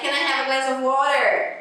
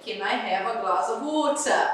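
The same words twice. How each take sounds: First: It is said with an American accent. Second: It is said with a British accent.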